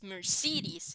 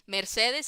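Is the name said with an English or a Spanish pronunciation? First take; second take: English; Spanish. First: It is said with an English pronunciation. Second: It is said with a Spanish pronunciation. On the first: "in English it's Mercedes" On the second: "how we pronounce it"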